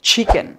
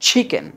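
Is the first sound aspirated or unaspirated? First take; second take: aspirated; aspirated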